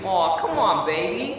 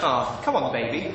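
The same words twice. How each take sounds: First: American accent. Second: Said in the usual way. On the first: Shown as a demonstration. Brit trying American phrases, American accent. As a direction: plead it in a put-on American voice. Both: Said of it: "my best American accent".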